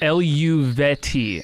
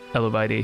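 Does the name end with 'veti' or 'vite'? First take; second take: veti; vite. First: The name ends with a 'veti' sound. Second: The name ends with a 'vite' sound. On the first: The speaker calls it right. "Is it like that?" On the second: The speaker calls it wrong. "I know I'm wrong by saying Eluvi- Eluvite"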